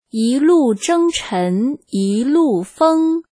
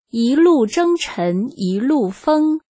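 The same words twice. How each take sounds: First: The line is read at a slowed-down pace. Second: The line is read at a normal, quicker pace.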